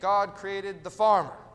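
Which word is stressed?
farmer. The stress falls on the word farmer. The human is the center of the story. The speaker calls it wrong. "We say"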